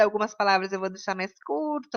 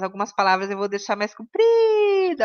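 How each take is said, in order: First: Quick, clipped-short demo of "curta"; faster. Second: Said in the usual way. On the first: Shown as a demonstration. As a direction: rattle the line off fast. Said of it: "eu vou falar mais rápido". (mais rápido)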